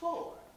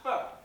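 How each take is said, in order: First: The vowel is full and clearly enunciated. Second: The vowel is reduced, sounding like fur. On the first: The speaker calls it right. "Enunciating and all" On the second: The speaker calls it wrong.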